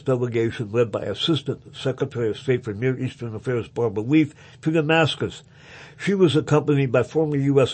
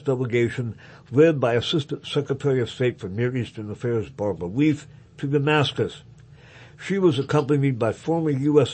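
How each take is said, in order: The two takes are said the same way.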